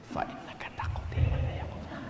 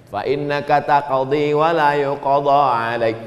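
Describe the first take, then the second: First: Whispered, barely audible recitation; silent-style recitation. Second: Said in the usual way. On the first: Shown as a demonstration. Preacher showing the imam's sir voice, whispered. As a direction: recite under your breath in a whisper. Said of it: "suara imam sir". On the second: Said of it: "dibacanya jahar".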